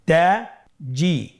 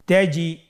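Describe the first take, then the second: First: "তাজি" very slowly in two separate syllables; syllables apart. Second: "তাজি" run together as one word; syllables joined. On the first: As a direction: split "তাজি" with a clear pause between syllables. ("তাজি" ভেঙে ভেঙে ধীরে) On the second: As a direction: blend both syllables of "তাজি" without a break. ("তাজি" একসাথে মিলিয়ে) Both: Shown as a demonstration. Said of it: "এভাবেও পড়তে পারেন".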